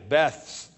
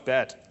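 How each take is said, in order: First: The word ends with a soft 'th' sound. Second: The word ends with a hard 't' sound. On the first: The speaker cannot say the sound properly. The speaker calls it wrong. "They had a lisp. They talked like I do" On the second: The speaker says the sound properly. The speaker calls it right. "No, it's Bet"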